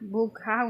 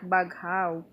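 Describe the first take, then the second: First: The first vowel sounds like 'u'. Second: The first vowel sounds like 'a'. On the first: The speaker calls it right. "Bughaw, not baghaw" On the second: The speaker calls it wrong. "not baghaw"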